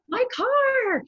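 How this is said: It is said with happy, excited delight. The person is thrilled to get a new car.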